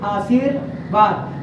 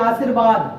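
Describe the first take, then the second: First: Slow, careful आशीर्वाद with a clear व, x0.5; आशीर्वाद in its correct form; correct pronunciation. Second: आशीर्वाद with a ब sound, /asiɾbad/; आशीर्वाद the careless way; common wrong pronunciation. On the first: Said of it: "आपका शुद्ध यहाँ क्या है". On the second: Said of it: "आशीर्वाद ऐसे बोलते हैं". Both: Shown as a demonstration.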